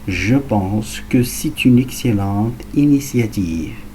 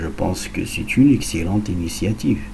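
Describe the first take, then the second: First: It is spoken very slowly. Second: It is spoken at natural speed. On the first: "très lentement" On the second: "à vitesse naturelle"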